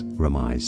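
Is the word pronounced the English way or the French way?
English. The word is pronounced the English way. "In English it's often said as remise"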